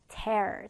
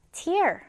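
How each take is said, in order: First: "tear" said like "tare", with an open eh; verb pronunciation. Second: "tear" said like "tier", with an ee sound; noun pronunciation. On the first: Teacher contrasts the word for ripping, "tear" pronounced like "tare". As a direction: say "tear" to rhyme with "air". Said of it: "이렇게 발음이 달라요". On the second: Teacher quizzes on the word for eye water, "tear" pronounced like "tier". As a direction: say "tear" to rhyme with "ear". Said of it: "눈물은 뭐라 한다고요?". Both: Shown as a demonstration.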